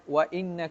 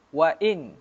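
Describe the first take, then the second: First: The particle ends with a doubled n and vowel. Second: The particle ends on a single light n. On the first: This is the reading of their own recitation. "qiraat kita baca dengan" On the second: This is the lightened reading. "dibaca di sini dengan takhfif"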